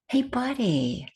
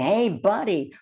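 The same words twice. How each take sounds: First: It is said softly and invitingly. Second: It is bellowed gruffly, like a boss.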